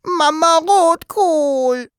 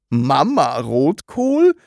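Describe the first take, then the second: First: Put-on very high, slow childlike wail; plaintive, drawn-out high cry; tearful whimper. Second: Slow, questioning echo with rising end; bewildered, drawn-out question; puzzled repetition. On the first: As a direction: whimper it out, drawing each word long. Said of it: "begann zu weinen und wimmerte". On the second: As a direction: repeat it slowly in baffled disbelief. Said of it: "wiederholte Herr Taschenbier". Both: A narrator's reading.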